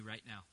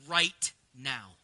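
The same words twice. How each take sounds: First: Said in the usual way. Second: RIGHT ... NOW, each word slow and separate; low, deliberate stress on RIGHT and NOW; emphatic RIGHT NOW. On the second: Real, not acted. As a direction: set RIGHT and NOW apart with a weighty pause. Repeats the phrase for emphasis.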